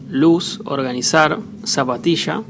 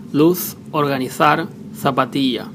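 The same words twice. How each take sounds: First: "luz, organizar, zapatilla" with every Z said as S. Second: "luz, organizar, zapatilla" with every Z said as English TH. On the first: Spanish teacher showing one Z variant, "luz, organizar, zapatilla" with S for Z. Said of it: "Z is either S". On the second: Spanish teacher showing Spain's accent, "luz, organizar, zapatilla" with TH for Z. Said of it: "T H again like in English". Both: Shown as a demonstration.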